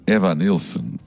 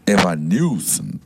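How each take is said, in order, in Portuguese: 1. O nome é dito com o sotaque natural do falante. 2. O nome é dito com um sotaque fingido.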